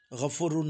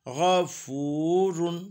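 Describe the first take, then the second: First: गफूरुन with a short, clipped "fu"; wrong short vowel. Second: गफूरुन with a long, held "fooo"; slow गफूरुन, middle vowel stretched to full length; full long vāv. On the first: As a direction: hurry through the middle vowel of गफूरुन. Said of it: "गफूरुन नहीं". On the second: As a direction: draw out the ū of गफूरुन before "run". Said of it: "पूरे वाव की आवाज़ बनेगी". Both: Shown as a demonstration.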